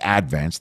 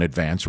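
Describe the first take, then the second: First: Advance stressed on the first syllable, AD-vance; local pronunciation. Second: Said in the usual way. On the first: Shown as a demonstration. How Staten Island locals say AD-vance. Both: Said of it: "They put the accent on the first syllable".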